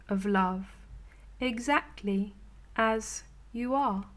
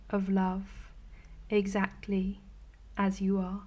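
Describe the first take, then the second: No difference in how they are said.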